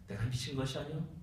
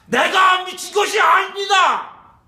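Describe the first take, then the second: First: It is said in a plain, calm voice. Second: It is shouted out boldly and loudly. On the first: The speaker calls it wrong. "그대로 평범하게" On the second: The speaker calls it right. "당당하게 외칩니다"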